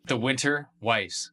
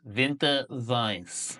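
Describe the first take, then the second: First: Said in the usual way. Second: "Winter Weiss" said slow as "Vinter Vice", hard German V; drawn-out fake German "Winter Weiss"; slow hammed-up German pronunciation; mock German. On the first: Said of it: "Winter Weiss (German re-say)". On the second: Shown as a demonstration. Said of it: "re-said with German sounds".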